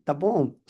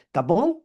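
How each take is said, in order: First: "Tapón" said with a falling, flat answer tune. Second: "¿Tapón?" asked with a rising question tune; asking question. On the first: Seller answering the customer's question, resigned falling reply. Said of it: "uno tiene que responder". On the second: Vendor offering a cork to a customer, rising question. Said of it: "Porque todos te dicen". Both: Retold or imitated.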